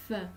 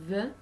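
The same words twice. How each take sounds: First: First "th" as a voiceless breath between the teeth; "th" with no buzz in the throat; unvoiced th. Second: Second "th" buzzed between the teeth; voiced "th", as at the start of "this". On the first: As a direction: blow air over the tongue tip for "th". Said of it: "th is unvoiced". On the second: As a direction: let the throat vibrate on "th". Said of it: "the is voiced". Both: Shown as a demonstration.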